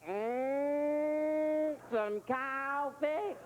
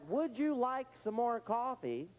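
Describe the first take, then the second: First: It is said in a clipped Southern accent. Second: It is said in a plain, standard accent.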